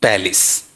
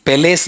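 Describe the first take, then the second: First: "पैलेस" as PAL-is, lower and falling; correct palace pronunciation. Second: "पैलेस" as pe-LESS, long E in second syllable; wrong palace pronunciation. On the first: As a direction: say "पैलेस" with open A, short i. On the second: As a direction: say "पैलेस" with both vowels as full E. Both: Shown as a demonstration. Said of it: "पैलेस नहीं".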